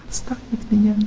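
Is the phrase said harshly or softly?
softly. It is said gently and softly, with calm emotion. The speaker is simply tired and needs rest. The speaker calls it right.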